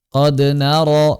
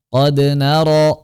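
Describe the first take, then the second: Both takes have the same delivery.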